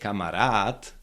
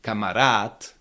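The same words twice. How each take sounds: First: The stress is on the last syllable. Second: The stress is on the last syllable.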